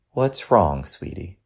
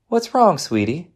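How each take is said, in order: First: Gentle concern. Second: High, lilting motherly question; mom's higher-voiced check-in; concerned question. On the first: Acted. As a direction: soften right down on sweetie. Mother asks again, closer, squeezing gently. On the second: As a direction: ask with raised pitch, easing down on sweetie. Mother first questions silent son.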